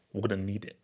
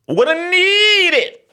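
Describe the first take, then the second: First: Low, soft aside; hushed, matter-of-fact demand; low-key phone request. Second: High, loud, long-stretched NEED; hammed-up high holler; comic shout. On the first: Acted. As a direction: say it low and quietly. Acts the phone call. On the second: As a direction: yell it high, dragging out NEED. Repeats the line as a shout.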